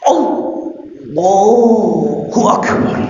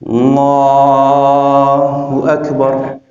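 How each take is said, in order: First: It is said at a very high pitch. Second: It is said at a normal pitch.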